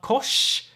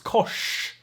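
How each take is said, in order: First: The sh sound is plain, tongue not curled. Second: The sh sound is retroflex, tongue curled back. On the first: The speaker calls it wrong. "it's not kosh" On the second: The speaker calls it right. "it's kosh. The tongue basically flexes back"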